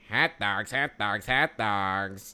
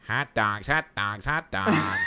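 First: It is said without a strong nasal voice. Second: It is said in a strongly nasal voice.

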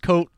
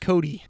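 First: The name ends with a 't' sound. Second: The name ends with a 'dee' sound. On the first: The speaker calls it wrong. "a lot of people think it's coat" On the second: The speaker calls it right. "It's pronounced Cody"

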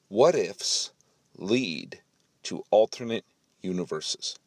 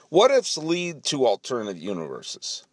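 First: The words are clearly and crisply enunciated. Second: The words are mumbled and run together. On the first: The speaker calls it right. "Let's say it with better enunciation" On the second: The speaker calls it wrong. "It was very mush-mouth of me"

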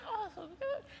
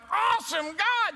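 First: It is said quietly with little energy. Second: It is said loudly with excited energy.

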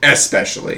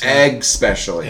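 First: The word begins with a plain 'ess' sound. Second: The word begins with an 'eggs' sound. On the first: The speaker calls it right. "And they mean" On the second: The speaker calls it wrong. "It's not egg specially"

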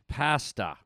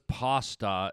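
First: The word is said the Canadian way. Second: The word is said a non-Canadian way. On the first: The speaker calls it right. "it's pronounced pasta" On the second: The speaker calls it wrong. "Whoever says pasta is from a demented universe"

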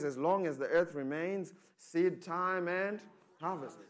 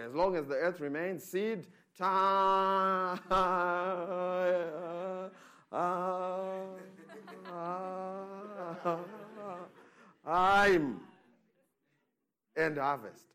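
First: It is said quickly, rushing the time. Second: It is said slowly, drawing out the time.

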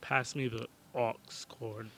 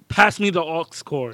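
First: The phrase is said in a flat, plain way. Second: The phrase is said with lively, raised energy.

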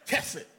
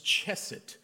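First: The word is said with a Hebrew-style pronunciation. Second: The word is said with an American English pronunciation. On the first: "I tried to pronounce it like I was Hebrew" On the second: "We normally say as Americans"

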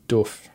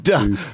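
First: The vowel is a long 'oo' sound. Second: The vowel is not a long 'oo' sound. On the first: The speaker calls it right. "you got to pronounce that word right. It's doof" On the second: The speaker calls it wrong. "Everyone In America says doof"

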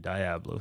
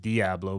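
First: The word is said with an English pronunciation. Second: The word is said with a Spanish pronunciation. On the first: "I've also heard people say Diablo" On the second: "I think the Spanish way is Diablo"

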